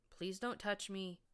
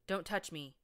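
First: Slow, pleading, a touch higher; begging. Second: Quick, blurted refusal. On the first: Injured pony pleading with his helper, slow begging. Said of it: "he sounded like he was begging". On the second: Injured pony pushing away his helper, quick blurted refusal. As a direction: blurt it out before thinking. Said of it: "he blurted". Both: A narrator's reading.

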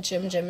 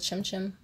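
First: "Jim Jim" with voiced J sounds. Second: "Chim Chim" with unvoiced Ch sounds; Ch, not J. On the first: Vlogger owning up to a slip, "Jim Jim" with J. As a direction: quote the slip, "Jim Jim" starting with J. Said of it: "I said Jim Jim instead of Chim Chim". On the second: Shown as a demonstration. Vlogger correcting the nickname, "Chim Chim" with Ch. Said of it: "instead of Chim Chim".

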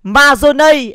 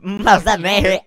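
First: "Mazone" loud and high, ending "-nây"; corrected pronunciation. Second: "Mazane" said with an "a-ne" ending; echoed mispronunciation. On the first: Shown as a demonstration. Correcting the sauce name, "Mazone" loudly as ma-dô-nây. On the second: Retold or imitated. Echoing the clip's sauce name, "Mazane" with an "a". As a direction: echo "Mazane" at normal pitch, middle vowel "a". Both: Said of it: "đọc là Mazone à".

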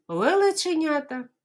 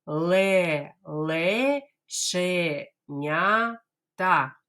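First: Лелеченята fast and higher in one breath; teacher says Лелеченята fast; quickly. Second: Ле-ле-че-ня-та very slow, every syllable apart; teacher drills Ле-ле-че-ня-та slowly. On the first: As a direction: rattle it off quickly. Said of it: "А тепер швиденько". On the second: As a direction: spell it out syllable by syllable. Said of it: "Давайте скажемо повільно". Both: Shown as a demonstration.

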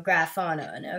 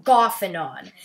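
First: "Graphonon" with a GR at the start; mispronounced name. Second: "Gophanon" without an R, as "GOFF-a-non"; corrected name. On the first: Gamer naming the statue, mispronounced name. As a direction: say "Graphonon" as "gra-FAH-non". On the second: Gamer correcting the statue's name, corrected name. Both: Real, not acted. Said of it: "Sorry if I pronounced that wrong".

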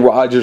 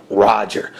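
First: Said in the usual way. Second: A touch lower, clipped henchman "Roger."; lightly voiced goon. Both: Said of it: "there's your little voice there".

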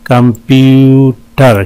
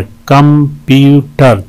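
First: "कंप्यूटर" slowly, middle syllable held long; syllable breakdown. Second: "कंप्यूटर" slowly, in three even separate beats; syllable breakdown. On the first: ("कंप्यूटर" धीरे, बीच का हिस्सा खींचकर) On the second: ("कंप्यूटर" तीन अलग बराबर हिस्सों में) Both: Shown as a demonstration. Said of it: "तीन सिलेबल हैं इसमें".

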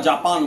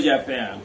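First: Said in the usual way. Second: জাপান with an American drawled vowel, like "Jaa-pan"; American pronunciation. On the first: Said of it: "একজন American বলবে জাপান". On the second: Shown as a demonstration. Showing the host how Americans say it, mock American. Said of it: "এইভাবে উচ্চারণ করে".

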